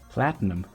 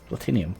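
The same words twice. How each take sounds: First: The stress is on the first syllable. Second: The stress is on the second syllable. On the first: "The accent goes in the first syllable. Platinum, like that" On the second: "I've always said it like that"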